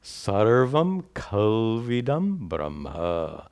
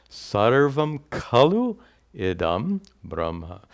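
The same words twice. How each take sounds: First: Slow, drawn-out Sanskrit recitation, "kalvidam" run together as one word; scripture recitation. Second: "kalu idam" said as two separate words, pause between; words separated. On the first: Teacher quoting the Chandogya Upanishad to students, slow joined recitation. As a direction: recite "Sarvam kalvidam Brahma" slowly as a flowing quotation. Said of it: "it says". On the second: Teacher unpacking a Sanskrit verse for students, word-by-word "kalu idam". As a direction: break "Sarvam kalu idam Brahma" apart word by word. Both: Shown as a demonstration.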